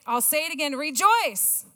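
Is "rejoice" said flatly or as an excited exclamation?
excited exclamation. Rejoice is said as an excited exclamation.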